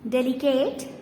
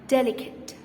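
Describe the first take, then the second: First: The final e is sounded in the last syllable. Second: The final e is silent in the last syllable. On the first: The speaker calls it wrong. "Is it called delicate? No" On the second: The speaker calls it right. "The last E in the word is silent"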